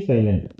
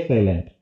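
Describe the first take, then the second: The two takes are said the same way.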